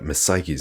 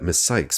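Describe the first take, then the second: First: The name is said with two syllables. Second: The name is said with one syllable. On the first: The speaker calls it wrong. "I keep on saying Psyche's" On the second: The speaker calls it right. "at least pronounce them so that I can pronounce them right"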